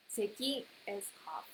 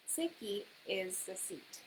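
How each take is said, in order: First: "Seki" with the pitch pattern for cough; careful "Seki", cough accent; cough intonation. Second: "seki" said slowly with the pitch pattern for seat; slow careful "seki"; seat intonation. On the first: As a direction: contrast "Seki" meaning cough. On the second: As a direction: model "seki" meaning seat. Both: Shown as a demonstration. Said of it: "it depends on the pronunci-, uh, intonation".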